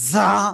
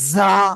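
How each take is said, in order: The two takes are said the same way.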